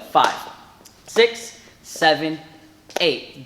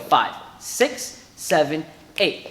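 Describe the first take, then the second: First: The numbers are counted slowly. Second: The numbers are counted faster.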